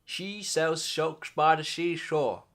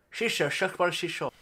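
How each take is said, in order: First: Slow "She sells socks by the seashore", s turning sh; slow tongue twister. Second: Faster "She sells socks by the seashore", slurred sh; quicker tongue twister. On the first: Trying the tongue twister slowly for viewers. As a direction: take the twister carefully, slipping to sh. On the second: Repeating the tongue twister at speed. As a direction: rattle off the twister. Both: Shown as a demonstration. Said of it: "That's a tongue twister".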